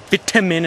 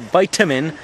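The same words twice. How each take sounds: First: Vitamin is said with a British pronunciation. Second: Vitamin is said with an American pronunciation. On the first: The speaker calls it right. "I say vitamin" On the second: The speaker calls it wrong. "and not vitamin"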